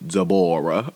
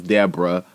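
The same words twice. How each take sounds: First: "Deborah" as duh-BOR-uh; imitated pronunciation. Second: Said in the usual way. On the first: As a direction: put the stress of "Deborah" on a long middle syllable. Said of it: "but she pronounced it Deborah". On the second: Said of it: "she said Deborah, right? Her name was".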